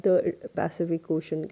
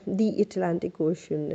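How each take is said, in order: First: THE said as "thuh" before Pacific; consonant-sound article. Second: THE said as "thee" before Atlantic; vowel-sound article. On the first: Teacher contrasts the two oceans, THE as "thuh". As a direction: say a short "thuh" for THE. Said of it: "के साथ आप". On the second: Teacher gives another example, THE as "thee". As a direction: say "thee Atlantic Ocean", slowly. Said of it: "You have to say". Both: Shown as a demonstration.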